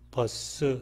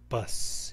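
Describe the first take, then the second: First: A vowel follows the final s, making two syllables. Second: It ends on a bare hissing s, one syllable. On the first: The speaker calls it wrong. "두 음절로 되는데 그렇게 발음하면 잘못된 것이죠" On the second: The speaker calls it right. "버 다음에 그냥 S 소리, 새어나오는 소리 스만 붙이면 되는 것이죠"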